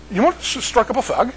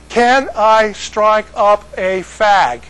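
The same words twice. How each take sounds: First: Garbled mock Manchester accent, higher pitch. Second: Very slow, higher, word by word; slowed right down. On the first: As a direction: slur it in imitated Northern English. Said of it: "they talk really weird there". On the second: Retold or imitated. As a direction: spell it out slowly for a baffled listener. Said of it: "you gotta slow down".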